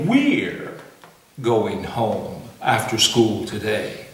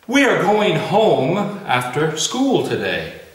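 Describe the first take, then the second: First: We are is squeezed into one syllable. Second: We are is said as two full words. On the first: "We say we're going home after school today" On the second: "we don't say we are going home after school today"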